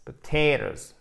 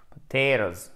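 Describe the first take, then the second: First: "Potatoes" with the middle t like d; flapped t. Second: "Potatoes" with the t like d; flapped t. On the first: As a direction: say "Potatoes" as po-tay-doz. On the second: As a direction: say it as po-tay-doz. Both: Shown as a demonstration. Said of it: "prononcé comme un de".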